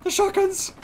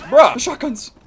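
First: Shrill shout. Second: Excited shout. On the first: Repeats it even higher. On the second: Excited about new shotguns. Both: Real, not acted.

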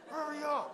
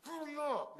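First: High, loud mom yell breaking into laughs; a retold mom yell cracked by laughter; mom voice through laughter. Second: Mock yell of a mom in a rush; mad mom. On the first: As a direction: laugh while imitating the angry mom. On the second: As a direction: bark it like an angry mother. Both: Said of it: "when your mom gets mad".

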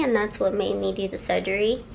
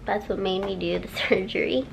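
First: Words slipping a little; groggy from anesthesia. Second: Slurred, laughing at herself; tripping over the word surgery; groggy from anesthesia. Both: Real, not acted. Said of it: "I'm talking funny".

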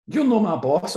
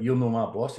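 First: High, louder weak comeback; a feeble defiant reply; mock childish retort; pathetic retort. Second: Said in the usual way. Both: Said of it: "I said something pathetic".

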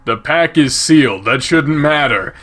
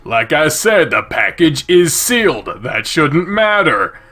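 First: Said in the usual way. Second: "sealed" and "matter" leaned on, slowing at the end; insistent repeat. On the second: Acted. Character repeats himself about the package, insistent stress on "sealed". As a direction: press "sealed", then draw out "That shouldn't matter".

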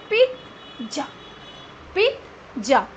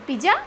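First: पिज़्ज़ा in two beats with a "t", "peet - ja"; correct pronunciation. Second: पिज़्ज़ा run together as "pi-ja"; wrong pronunciation. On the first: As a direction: stop on a "t" inside पिज़्ज़ा before "ja". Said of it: "Correct pronunciation is". (पिज़्ज़ा को "पिट-जा" बोलें) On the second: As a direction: say पिज़्ज़ा without any "t", rising. (पिज़्ज़ा को "पिजा" बोलें) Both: Shown as a demonstration.

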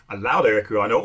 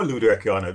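First: "Alauda Equiano" with a LOUD-like second syllable; one pronunciation variant. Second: "Luda Equiano" with an oo vowel; alternative pronunciation. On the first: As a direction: offer "Alauda Equiano" with an ow vowel. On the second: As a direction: say "Luda" as LOO-da. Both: Shown as a demonstration. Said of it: "depends on who's pronouncing it".

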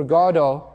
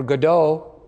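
First: Godot stressed on GOD; stress on first syllable. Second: Godot stressed on DOH; stress on second syllable. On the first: Preacher naming the play, Godot stressed on its first syllable. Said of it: "I don't know where the emphasis should be". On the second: Preacher giving the local pronunciation, Godot stressed on its last syllable. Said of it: "as is said here". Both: Shown as a demonstration.

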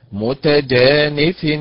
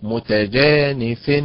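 First: متجانف drawn out slowly with a rising tune; the model form of متجانف; correct stress. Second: متجانف said slowly with a falling tune, stress misplaced; متجانف with the stress in the wrong place. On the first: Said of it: "فعل وليست". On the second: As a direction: show the mistaken stress on متجانف. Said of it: "وليست". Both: Shown as a demonstration.

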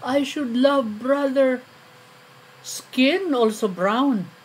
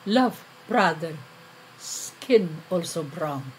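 First: Higher, louder, drawn-out recited plea; quoted appeal. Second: Subdued echo. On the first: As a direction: stretch it out as a lofty quoted appeal. Poem quotes the accused's appeal. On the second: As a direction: repeat it haltingly, letting it sink at the end. Poem echoes the same appeal, subdued. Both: Acted.

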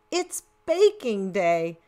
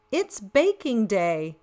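The two takes are said the same way.

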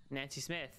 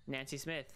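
Both takes have the same delivery.

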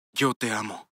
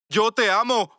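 First: Said in the usual way. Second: High, loud declaration; raised, desperate I love you; shouted love. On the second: Acted. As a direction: yell it for everyone to hear. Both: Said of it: "Quiero gritar y decir "te amo".

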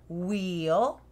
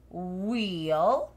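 No difference in how they are said.

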